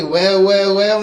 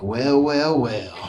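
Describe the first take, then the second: First: Louder, higher, disbelieving well well well; mock incredulous repeat. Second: Lightly voiced menacing intruder; a hint of a smug villain drawling well well well. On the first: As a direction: throw the line back in disbelief. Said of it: "Can't say". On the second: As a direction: intruder sizing up the room, mock menace. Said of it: "Can't say, "Well, well, well," motherfucker".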